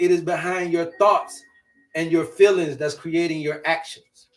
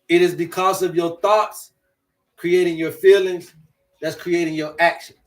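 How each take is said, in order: First: It is said at a normal pace. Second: It is said slowly.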